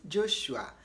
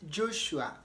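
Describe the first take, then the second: No difference in how they are said.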